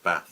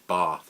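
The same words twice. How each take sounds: First: The vowel is short, like 'cat'. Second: The vowel is long, like 'barth'. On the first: This is how the speaker usually says it. "usually I call it" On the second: This is how the locals say it. "locals would prefer that I call the city"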